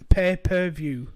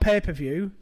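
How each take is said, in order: First: The syllables 'pay' and 'per' are kept apart. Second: The first two syllables blend into 'paper'. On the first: The speaker calls it right. "It's pay per view" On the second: The speaker calls it wrong. "It's not pay per view"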